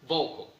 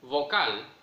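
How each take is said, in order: First: The last vowel is a weak schwa. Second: The last vowel is a full Spanish a. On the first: "English vocal" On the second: "Spanish vocal"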